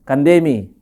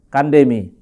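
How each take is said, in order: First: The stress is on the second syllable. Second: The stress is on the first syllable. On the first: It refers to the listener's food. "aksennya adalah E, koma atas" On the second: It invites someone to eat. "aksennya adalah bagian A, koma atas"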